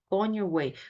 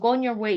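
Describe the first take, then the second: First: Each word is said clearly and separately. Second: The words run together smoothly without breaks. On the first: "명확한 발음이겠지만" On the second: "이러지"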